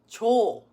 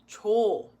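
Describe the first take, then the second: No difference in how they are said.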